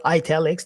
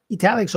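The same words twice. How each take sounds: First: ITALICS begun with an "eye" sound; long-i variant. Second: ITALICS begun with a short "ih" sound; short-i variant. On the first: Teacher giving learners the other regional option, long-i variant of "italics". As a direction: say "italics" as "eye-TAL-ics". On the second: Teacher giving learners one regional option, short-i variant of "italics". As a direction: say "italics" opening on "ih", as in "it". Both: Shown as a demonstration. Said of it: "depending where you are".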